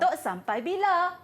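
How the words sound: It is said with a fairly high pitch.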